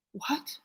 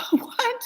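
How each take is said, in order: First: A soft, high, shocked what; barely voiced, knocked breathless by the news; hushed stunned reaction to the bad news; stunned disbelief. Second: A much higher, incredulous what with a laugh; can't believe it, laughing in shock; mother's third shocked what, now laughing; laughing disbelief. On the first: Stunned at hearing heroin. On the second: Retold or imitated.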